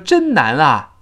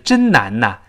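First: The final particle is a plain 'a' sound. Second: The final particle is linked as 'na'. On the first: The speaker calls it wrong. "你后面再说真难啊就非常别扭" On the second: The speaker calls it right. "因为难最后是个n 那个声音"

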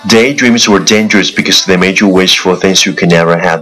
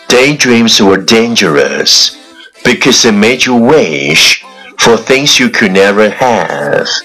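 First: The sentence is said very fast in one breath. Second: The sentence is said at a moderate pace. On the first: "一口气最快语速" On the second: "跟上我的节奏。"

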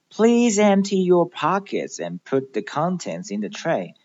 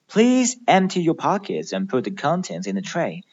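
First: The sentence is spoken at a slower pace. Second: The sentence is spoken at a faster pace.

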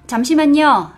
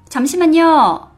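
No difference in how they are said.

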